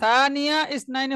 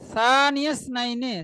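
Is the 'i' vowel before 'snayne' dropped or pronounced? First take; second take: pronounced; dropped. First: An 'i' vowel is pronounced before 'snayne'. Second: The words link with no vowel before 'snayne'. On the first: The speaker calls it wrong. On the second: The speaker calls it right.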